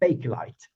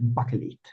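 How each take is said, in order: First: The word ends with an English 'light' sound. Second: The word ends with a short 'lit' sound. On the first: "so it would have been English" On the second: "It sounds really weird and odd"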